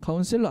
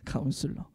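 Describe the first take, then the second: First: The middle syllable has an 'eh' vowel. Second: The middle syllable has an 'eu' vowel. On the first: The speaker calls it wrong. "절대로 카운셀러라고 발음하지 마세요" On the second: The speaker calls it right.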